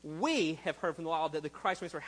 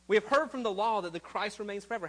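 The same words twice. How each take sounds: First: The word 'we' is said with strong stress. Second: The word 'we' gets no special stress.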